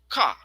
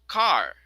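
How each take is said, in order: First: The final R sound is dropped. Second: The final R sound is pronounced. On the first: "In British, car" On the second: "ay American, it is car"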